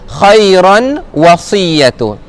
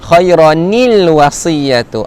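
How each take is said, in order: First: Khairan runs straight into wasiyatu without linking syllable. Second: An extra linking syllable joins khairan to wasiyatu. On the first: The speaker calls it wrong. "orang yang salah baca ... dia terus baca khairan wasiyatu" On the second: The speaker calls it right. "Kenapa baca khairanil"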